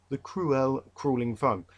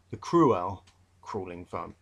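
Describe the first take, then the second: First: "cruel" said in two syllables, kroo-el, slowly and clearly; "cruel" as kroo-el, set apart from "crawling"; careful pronunciation. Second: "cruel" and "crawling" said alike, cruel as one syllable, slowly; "cruel" said like "crawl" in a London accent; London pronunciation. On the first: Teacher correcting his accent to show the right sound. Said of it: "it should be cruel". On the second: Teacher showing his London accent on the poem. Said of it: "I was u-, using my London accent". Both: Shown as a demonstration.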